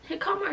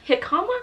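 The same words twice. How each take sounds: First: "jicama" said as juh-KAH-mah, with a J sound; second try: "jicama" with a J, juh-KAH-mah; unsure pronunciation. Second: "jicama?" said as HEE-kah-mah, rising like a question; unsure pronunciation. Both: Shown as a demonstration. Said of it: "Is it jicama or jicama?".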